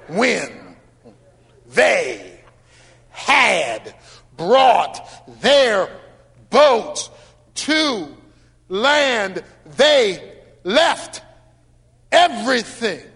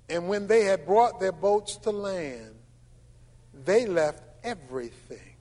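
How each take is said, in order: First: It is read slowly, word by word. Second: It is read fast.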